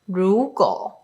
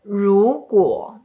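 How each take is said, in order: First: The glide before the vowel is dropped. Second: The glide before the vowel is kept. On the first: The speaker calls it wrong. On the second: The speaker calls it right.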